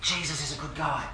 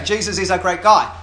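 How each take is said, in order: First: Soft, hushed mock whisper. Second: Loud, distinct, clearly spoken message. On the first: [name] passing a message to Anita in the game, mock whisper. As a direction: pass it on in a lowered, secretive voice. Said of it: "[name] whispers to Anita and says". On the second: Acted. [name] speaking openly to Anita, loud clear voice. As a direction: say it out loud so nobody could mishear. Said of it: "in a clear voice".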